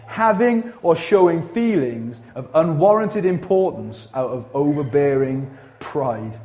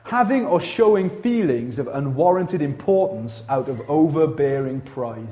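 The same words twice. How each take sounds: First: Slow, spaced-out definition with weight on each phrase; deliberate repeat. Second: Said in the usual way. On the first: Shown as a demonstration. Preacher repeating arrogance definition to congregation, slow and deliberate. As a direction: read it out slowly, pausing before the final word. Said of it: "Let me say that again".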